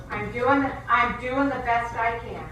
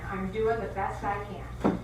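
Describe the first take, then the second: First: Exasperated Kathy. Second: Slow, deflated echo; weary repeat. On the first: Coworker rolling her eyes, answering loudly in exasperation. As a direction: play it like someone at the end of her rope. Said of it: "and she goes". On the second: Coworker repeating herself, slow and weary after the outburst. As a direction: let the line sag as she gives up. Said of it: "she rolls her eyes back in her head". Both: Retold or imitated.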